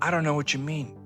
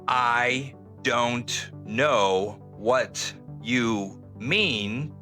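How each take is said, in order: First: The words are reduced and run together. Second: Each word is said clearly and separately. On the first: "it's going to sound" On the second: "instead of hearing"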